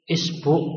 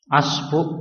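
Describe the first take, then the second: First: The word begins with an i vowel. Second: The word begins with an a vowel. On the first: "dibaca kasroh" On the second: "dibaca fathah"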